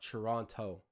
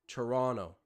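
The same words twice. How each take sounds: First: The final T sound is clearly pronounced. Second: The final T sound is left out. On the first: The speaker is not from the city. The speaker calls it wrong. "like someone who isn't from the city" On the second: The speaker is from the city. The speaker calls it right. "It's a silent T at the end"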